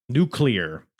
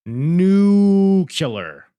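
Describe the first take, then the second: First: NUCLEAR said as "NOO-klee-er", at normal pitch; quicker, tidy "noo-klee-er" for NUCLEAR; corrected nuclear. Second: NUCLEAR as "NOO-kyuh-ler", first syllable stretched out, loud and high; drawn-out, booming "NOO-kyuh-ler" for NUCLEAR; mispronounced nuclear. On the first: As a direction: say NUCLEAR with a clear "klee-er" ending. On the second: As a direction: bellow NUCLEAR slowly as "nooo-kyuh-ler". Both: Real, not acted. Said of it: "my wife hates when I say nuclear".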